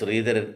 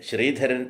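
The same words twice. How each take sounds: First: The word begins with an 'sr' sound. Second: The word begins with a 'shr' sound. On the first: The speaker calls it wrong. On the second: The speaker calls it right.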